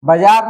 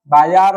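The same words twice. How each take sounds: First: बाजार with short first a, "bajaar"; wrong form. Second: बाजार with long "baa"; correct form. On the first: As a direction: clip the "ba" of बाजार. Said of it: "बाजार नहीं होगा". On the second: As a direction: stretch the first vowel of बाजार. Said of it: "बाजार होगा". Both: Shown as a demonstration.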